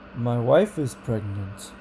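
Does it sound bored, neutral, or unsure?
neutral. It is neutral, rising slightly then falling back.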